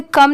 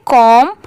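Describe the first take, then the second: First: "कम" with a short uh, like "kum"; short vowel. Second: "कॉम" with a long rounded o, like "kawm"; open o vowel. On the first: Teacher showing the reading to avoid, "कम" with short uh. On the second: Teacher correcting the short reading, "कॉम" with open o. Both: Shown as a demonstration. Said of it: "इसे कम नहीं पढ़ेंगे".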